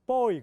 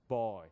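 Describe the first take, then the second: First: Put-on boy loud, high and short, "보이"; Korean-style boy. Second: Put-on boy low and long; American-style boy. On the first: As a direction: punch boy as quick Korean syllables. (한국식으로 크고 짧은 boy) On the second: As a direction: drawl boy deep, in one glide. (미국식으로 낮고 길게 끄는 boy) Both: Shown as a demonstration. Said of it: "그런 거 없어요".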